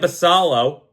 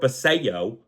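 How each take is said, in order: First: The middle consonant is an L sound. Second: The middle consonant is a Y sound. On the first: The speaker calls it wrong. "my dumb mind just wants to keep saying Basalo" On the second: The speaker calls it right. "I'm pretty sure that's how you pronounce it"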